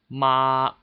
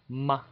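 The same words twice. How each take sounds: First: It is said with Mandarin first tone. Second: It is said lightly with the neutral tone. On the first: "the first tone is ma" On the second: "the fifth tone would be light"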